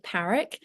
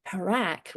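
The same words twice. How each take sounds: First: Parak with stress on the first syllable; British PARR-ick, first syllable stressed on Parak; own pronunciation of the surname. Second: Parak with stress on the second syllable; others' pronunciation. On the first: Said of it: "I pronounce it". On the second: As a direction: say Parak as puh-RACK. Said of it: "lots of people pronounce it". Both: Shown as a demonstration.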